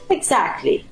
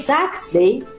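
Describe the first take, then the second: First: The t before the l is dropped. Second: The t before the l is pronounced.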